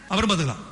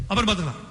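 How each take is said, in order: No difference in how they are said.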